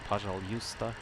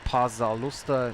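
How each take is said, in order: First: The word is said with a J sound inside. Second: The word is said without a J sound inside. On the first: "more like Pajaljusta with a you know with a J sound" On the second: "sometimes it was just like pa- Pazalusta"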